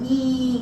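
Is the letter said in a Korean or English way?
Korean. It is said flat, Korean style. "한국말은 이 그래요"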